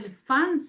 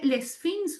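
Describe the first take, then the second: First: The name is said with French-style nasal vowels. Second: The name is said with Spanish-style vowels.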